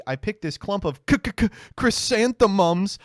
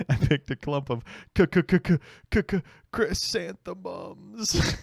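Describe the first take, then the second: First: Put-on stuttering child. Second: Long slow k- k- k- stammer, then chrysanthemums; drawn-out stutter. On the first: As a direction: stammer like a little kid. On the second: Retold or imitated. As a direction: stretch the stammer on k-. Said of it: "I said that for weeks".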